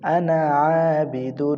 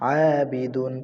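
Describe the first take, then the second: First: আনা stretched long and slow; drawn-out recitation. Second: Said in the usual way. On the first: Shown as a demonstration. Teacher showing students the long আনা. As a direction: hold the vowels of আনা আবিদুন. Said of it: "recites with drawn-out আনা". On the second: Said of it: "তাড়াতাড়ি বি দাল দুই পেশ".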